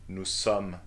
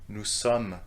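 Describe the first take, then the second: No difference in how they are said.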